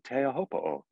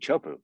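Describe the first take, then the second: First: The name is said with all its syllables. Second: The name is clipped to two quick syllables. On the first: The speaker calls it right. "Which sounds better to you" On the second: The speaker calls it wrong. "Would you rather hear me, [name], say"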